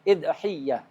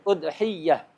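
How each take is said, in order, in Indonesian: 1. Dimulai dengan i dan y-nya ganda. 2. Dimulai dengan u dan y-nya ganda. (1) "Bisa juga di tasdid" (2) "Atau ya-nya di tasdid"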